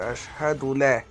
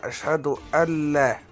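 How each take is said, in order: First: The 'an' syllable is dropped before 'la'. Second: The 'an' syllable is heard, merging into 'la'. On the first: The speaker calls it wrong. "ما تقولش أشهد لا" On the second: The speaker calls it right. "وتقول أشهد أن لا"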